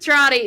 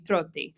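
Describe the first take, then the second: First: The name is pronounced the English way. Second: The name is pronounced the Italian way. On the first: The speaker calls it right. "is the way of the game for sure" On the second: The speaker calls it wrong. "if I were to pronounce this in Italian"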